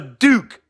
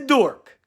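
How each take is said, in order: First: The name is said with an 'oo' sound. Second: The name is said with an 'or' sound. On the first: The speaker calls it right. "It's Josh the Duke" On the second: The speaker calls it wrong. "I said it wrong. He's not a dork"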